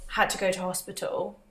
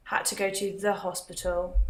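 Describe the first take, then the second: First: "go to hospital" said without "the"; British usage, "had to go to hospital" with no article. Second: "to the hospital" with "the" added and stressed; American usage, lean on "the" in "the hospital". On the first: Vlogger answering a chat question demonstrates the British "to hospital". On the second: Vlogger answering a chat question demonstrates the American "to the hospital". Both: Shown as a demonstration. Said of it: "why do Brits say hospital instead of the hospital".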